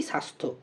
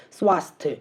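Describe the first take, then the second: First: Said in the usual way. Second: স্বাস্থ্য with every written letter voiced, "swasthye"; spelling pronunciation. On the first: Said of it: "আমরা বলি". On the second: Shown as a demonstration. Teacher shows how it is not said, স্বাস্থ্য read literally with "swa". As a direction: say স্বাস্থ্য as "swas-thye", sounding the w. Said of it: "এইভাবে উচ্চারণ করছি না".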